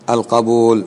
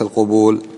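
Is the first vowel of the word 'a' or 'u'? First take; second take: a; u. First: The first vowel is a, as in qabool. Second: The first vowel is u, as in qubool. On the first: It means acceptance, the opposite of refusal. The speaker calls it right. "القبول ضد إيش الرفض, فاسمه القبول" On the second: It is the plural of a different word. The speaker calls it wrong. "القبول جمع قبل ... وليس القبول"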